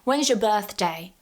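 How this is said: The voice falls at the end. It is a genuine question the speaker wants answered. "we're using a falling intonation"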